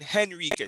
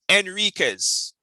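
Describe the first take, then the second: First: The word begins with an H sound. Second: The word begins without an H sound. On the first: The speaker calls it wrong. "You're saying Henriquez" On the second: The speaker calls it right. "There's no H"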